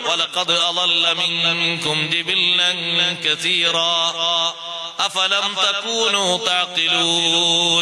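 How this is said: Stops with a breath after 'kathira'. The speaker calls it right. "നിർത്തുമ്പോ ശ്വാസം വിടണല്ലോ"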